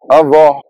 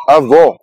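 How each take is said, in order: First: Avó with an open final o, as in grandmother. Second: Avó with a closed final o, as in grandfather. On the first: Language teacher showing avó meaning grandmother, open final o. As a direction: say avó ending in a wide, open o. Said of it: "O in avó is open". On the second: Language teacher showing avó meaning grandfather, closed final o. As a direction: say avó ending in a tight, closed o. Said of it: "O in avó is closed". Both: Shown as a demonstration.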